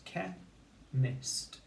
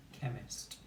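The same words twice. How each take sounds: First: "che-mist" in two separated beats, higher first; syllable by syllable. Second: Said in the usual way. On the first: Shown as a demonstration. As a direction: break "che-mist" cleanly between syllables. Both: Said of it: "two syllables".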